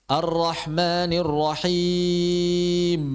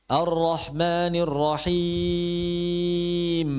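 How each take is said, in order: Both takes have the same delivery.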